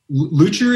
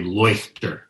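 First: The name is said with an American pronunciation. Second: The name is said with a German pronunciation. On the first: "the sort of general Americanized pronunciation" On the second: "which is more German"

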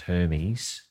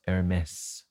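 First: The name is said with an English pronunciation. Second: The name is said with a French pronunciation. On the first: "which I forthwith shall pronounce as Hermes, because that's what we would do" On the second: "Heir to the French fashion house Hermès"

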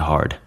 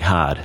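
First: The R sound is pronounced. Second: The R sound is dropped. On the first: "instead of" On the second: "Anytime there's an R, you just don't really pronounce it"

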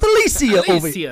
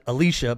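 First: The name is pronounced the Italian way. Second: The name is pronounced the American way. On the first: "over in Italy, we pronounce it Alicia" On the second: "Americans pronounce it Alicia"

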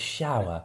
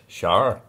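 First: It is said in a standard British accent. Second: It is said in a Northern Irish accent. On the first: "The word is shower" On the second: "Or in Northern Irish"

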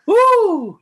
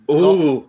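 First: It is said with more gusto. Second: It is said with little energy.

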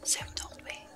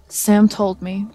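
First: It is said very quietly, almost whispered. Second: It is said clearly at a louder volume.

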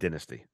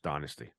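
First: The word is said with an English pronunciation. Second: The word is said with an American pronunciation. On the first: "It's pronounced dynasty" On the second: "In England, or most of England, I would say, it's not pronounced dynasty"

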